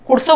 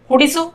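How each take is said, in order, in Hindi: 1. एक स्वर गिर जाता है, जिससे शब्द छोटा हो जाता है। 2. हर स्वर पूरा बोला जाता है।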